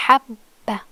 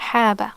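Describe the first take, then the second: First: "habba" with the b held before "ba"; doubled b. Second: "Haba" with one short b, no hold; single b. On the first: Contrasting with no shadda, "habba" with doubled b. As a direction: stop on the b in "habba", then release it. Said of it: "but with shadda". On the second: Showing learners the difference, "Haba" with single b. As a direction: say "Haba" in one flow, the b only once. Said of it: "The ba is pronounced only one time". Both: Shown as a demonstration.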